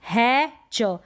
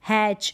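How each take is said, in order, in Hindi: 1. शब्द दो अलग-अलग हिस्सों में बँटा है। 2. शब्द एक जुड़ी हुई इकाई के रूप में बोला जाता है। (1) "तोड़ तोड़ के पढ़ते हैं" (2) "उस वर्ड को किस तरीके से पढ़ें"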